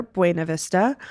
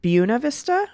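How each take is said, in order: First: Buena said BWAY-nuh; second option, Buena as BWAY-nuh; Spanish-style pronunciation. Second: Buena said BYOO-nuh; first option, Buena as BYOO-nuh; local pronunciation. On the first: Host reading out the poll, Buena as BWAY-nuh. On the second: Host reading out the poll, Buena as BYOO-nuh. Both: Shown as a demonstration. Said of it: "How do you pronounce these Colorado places?".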